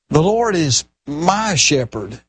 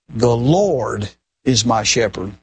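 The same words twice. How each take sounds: First: The stress is on the word my. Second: The stress is on the word Lord.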